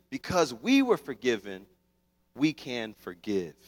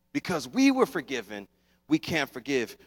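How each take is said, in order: First: Slow soft emphasis. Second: Said in the usual way. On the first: Shown as a demonstration.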